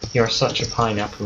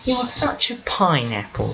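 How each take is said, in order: First: It is said in the speaker's ordinary voice. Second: It is said in a strange put-on voice.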